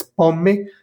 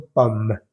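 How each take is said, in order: First: "pomme" as two syllables, pom-me, rising; sounded final e. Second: "pomme" as one syllable closing on M; slow French "pomme", final e dropped; silent final e. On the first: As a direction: mistaken "pomme" with a clear e after the M. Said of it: "pero no es". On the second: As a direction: say "pomme" correctly, no e after the M. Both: Shown as a demonstration.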